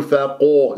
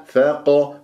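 First: Wrong فاقو with lips rounded to o; rounded qaf. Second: Slow فاق with an open heavy a, no o; unrounded heavy qaf. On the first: Teacher showing what to avoid, rounded فاقو. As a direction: round the vowel after q in فاقو. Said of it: "لا تقول فاقو". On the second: Teacher correcting the error, open heavy qaf in فاق. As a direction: keep lips unrounded on the q of فاق. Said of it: "لا تقول فاقو، لا". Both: Shown as a demonstration.

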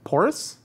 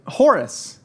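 First: "Horace" with a rising questioning tune; unsure question. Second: "Horace" high, then falling firmly; confirming statement. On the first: Host guesses who coined the saying, "Horace" rising in question. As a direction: guess "Horace" tentatively, lifting at the end. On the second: Host confirms who coined the saying, "Horace" falling. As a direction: land "Horace" as an answer, tune dropping. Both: Real, not acted.

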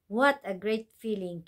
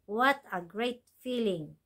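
First: Said in the usual way. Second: Slow model phrase. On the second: Shown as a demonstration. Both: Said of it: "오케이".

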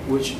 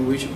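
Both takes have the same delivery.

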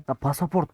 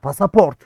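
First: Said in the usual way. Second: Pasaport said louder with a falling tune; loud emphatic pasaport. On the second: Real, not acted. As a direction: land hard on pasaport. Realizes it's the passport.

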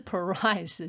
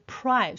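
First: Price wrongly said as puh-rice; full vowel after p in price; "price" broken into two syllables; wrong split pr. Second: Price with p straight into r; blended pr. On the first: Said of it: "不是price". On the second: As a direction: price as one syllable, no vowel after p. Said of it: "是price". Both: Shown as a demonstration.

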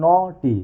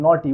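First: "নটি" drawn out in two separate beats, no-ti; split into syllables. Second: Said in the usual way. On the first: Shown as a demonstration. Teacher showing students how many syllables, "নটি" split in two. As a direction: say "নটি" slowly, one syllable at a time. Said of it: "দুবারে উচ্চারণ হয়". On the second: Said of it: "কবারে উচ্চারণ হচ্ছে".

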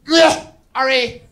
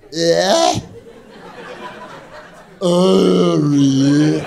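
First: High, slow, dragged-out sneer of a friend's name; drawn-out put-upon sneer, much higher; friend's disgusted reply, slow and high; disgusted impression of Margaret. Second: Stretched-out slower replay of the sneer; friend's sneer replayed in slow motion. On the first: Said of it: "That was the exact impression". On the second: Shown as a demonstration. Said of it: "I'll do it in slow motion".

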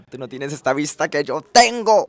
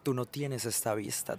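First: Louder, higher boast; bragging shout. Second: Teasing softly. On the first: To viewers about his window view, loud bragging. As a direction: brag it at full voice. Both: Real, not acted. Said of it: "repeated for emphasis".

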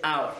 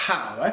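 First: Hour starting straight on the vowel, "our"; correct silent h. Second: Hour with a long breathy h at the front; wrongly sounded h. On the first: Teacher correcting the mistake, silent h. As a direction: drop the h from hour entirely. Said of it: "c'est hour". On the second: Teacher showing the mistake to avoid, sounded h. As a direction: blow a big h into hour, "hhhour". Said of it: "C'est pas". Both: Shown as a demonstration.

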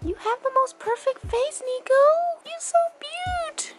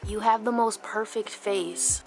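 First: Dog talk. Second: Said in the usual way. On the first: Real, not acted. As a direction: gush at the puppy in a raised, louder coo. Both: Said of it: "I got dog talk".

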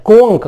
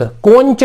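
First: कोंक ending in hard "k". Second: कोंच ending in "ch" as in church; mistaken CH sound. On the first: Teacher giving the correct reading, कोंक with "k". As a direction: say कोंक with a final क. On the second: Teacher warning against the misreading, कोंच with "ch". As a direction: say कोंच with a final च. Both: Shown as a demonstration. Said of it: "कोंच नहीं पढ़ना है".

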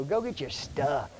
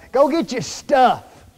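First: Said in the usual way. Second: Louder, slow mock parent calling out go get your stuff; parent's order. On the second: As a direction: bark it like a mom sending a kid to pack. Parent telling child before trip.

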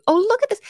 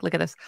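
First: High, loud excited burst; suddenly thrilled at what she sees. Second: Said in the usual way. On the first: Real, not acted. Streamer spots something on screen, excited high burst.

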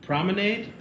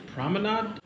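First: PROMENADE ending in "nade", high questioning rise. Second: PROMENADE ending in "nahd", pitched high. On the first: Host unsure which pronunciation is right, promenade with AY. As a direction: make PROMENADE rhyme with lemonade. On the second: Host unsure which pronunciation is right, promenade with AH. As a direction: make PROMENADE rhyme with "odd". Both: Shown as a demonstration. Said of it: "Is it promenade or promenade".

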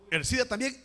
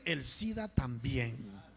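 First: Higher, quicker first statement; emphatic preacher's call; raised call. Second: Low, drawn-out, falling repeat; grave, stretched echo; slow solemn repeat. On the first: Each illness called, then repeated slowly. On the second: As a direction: repeat it slowly and low to let it sink in. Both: Real, not acted.

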